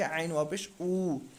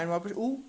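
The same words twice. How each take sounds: First: The final vowel is stretched long. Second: The final vowel is short, not stretched. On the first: The speaker calls it right. "बल्कि आइन वाव पेश ऊ, क्योंकि ये वाव मद्दा यहाँ होगा" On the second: The speaker calls it wrong. "ऐसे नहीं पढ़ना"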